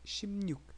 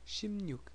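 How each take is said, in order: First: The middle has a nasal mn sound. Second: The middle has a nasal mn sound.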